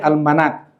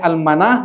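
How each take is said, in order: First: The word ends with a clear t sound. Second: The word ends with a soft h sound. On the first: "boleh al-manat" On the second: "Boleh al-manah"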